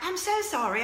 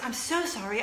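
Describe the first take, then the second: First: It is said in a put-on British accent. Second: It is said in the speaker's normal accent.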